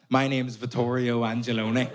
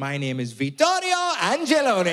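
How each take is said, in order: First: It is said in a Belfast accent. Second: It is said in an Italian accent.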